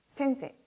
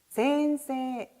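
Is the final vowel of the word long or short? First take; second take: short; long. First: The final vowel is short, with fewer beats. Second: The final vowel is long, giving four beats. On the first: The speaker calls it wrong. "박자에서 놓칠 경우가 많기 때문에 많은 학생들이 센세, 센세 이런 식으로 1번처럼 읽어버리는" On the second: The speaker calls it right. "4박으로 다시 한 번 더 읽어보도록 할까요?"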